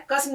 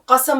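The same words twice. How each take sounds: First: قسم said as qism, zer under the first letter; wrong pronunciation. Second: قسم said as qasam, zabar on both letters; correct pronunciation. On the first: Teacher showing the wrong way, qism with a zer. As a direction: close the first vowel: قسم as qis-m. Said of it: "قسم نہیں پڑھنا ہے". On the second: Teacher showing the right way, qasam with open vowels. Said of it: "دونوں جگہ زبر لگا کے پڑھنا ہے". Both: Shown as a demonstration.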